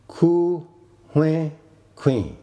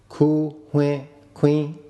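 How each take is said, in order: First: The last word is on a low tone. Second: The last word is on a mid tone. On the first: He bought a chicken. "Queen is low tone" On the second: He bought a grindstone. "Here it is a grindstone that is bought"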